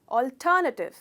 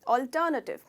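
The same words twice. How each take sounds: No difference in how they are said.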